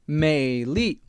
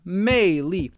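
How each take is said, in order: First: The first syllable has a low dipping tone. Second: The first syllable has a high falling tone. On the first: It means outward beauty. "third tone, fourth tone" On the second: It means a deeper, spiritual allure. "fourth tone, fourth tone"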